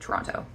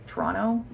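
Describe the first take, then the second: First: The second T sound is clearly pronounced. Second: The second T sound is left out. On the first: This is how the speaker personally says it. "I definitely do, so I say the first one" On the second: This is how people native to the city say it. "they don't really pronounce the second T"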